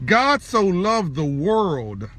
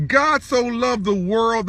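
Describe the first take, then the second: First: Drawn out at half speed; weighty, stretched-out scripture recital; slow, solemn preaching. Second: Said in the usual way. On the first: Real, not acted. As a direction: let each word of the verse land slowly. Repeats the verse with weight.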